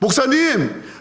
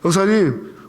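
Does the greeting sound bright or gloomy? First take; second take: bright; gloomy. First: The greeting sounds bright and cheerful. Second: The greeting sounds tired and gloomy. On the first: The speaker shows joy to support the pastor. The speaker calls it right. "항상 밝게" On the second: The speaker lets personal troubles show. The speaker calls it wrong. "그냥 내가 뭐 힘든 일이 있어. ... 이렇게 안 해요"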